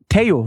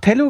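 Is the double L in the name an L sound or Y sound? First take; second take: Y sound; L sound. First: The double L sounds like an English Y. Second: The double L sounds like an English L. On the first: The speaker calls it right. "LL wird I ausgesprochen im Spanischen" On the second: The speaker calls it wrong. "da gab ja Pocho auch Tello gesagt"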